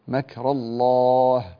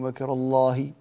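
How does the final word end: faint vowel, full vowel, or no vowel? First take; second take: no vowel; full vowel. First: The last word ends with no vowel. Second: The last word ends with a full vowel. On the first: The speaker calls it right. "لابد أن تقف عليها بالسكون" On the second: The speaker calls it wrong. "لماذا وقفت بالحركة؟"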